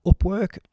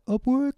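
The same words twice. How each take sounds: First: A crack in the voice mid-word. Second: Squeaky high retake of Upwork; high-pitched redo. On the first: Real, not acted. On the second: Shown as a demonstration. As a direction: say Upwork much higher, with a rise. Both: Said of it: "Oh, my voice broke there".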